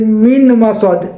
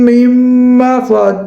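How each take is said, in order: First: The n is pronounced before the m. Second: The n merges into a doubled m. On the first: The speaker calls it wrong. "मिन पढ़ते" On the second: The speaker calls it right. "मीम को मीम के साथ मिलाना है"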